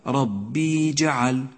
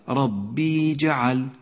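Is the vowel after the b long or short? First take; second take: long; long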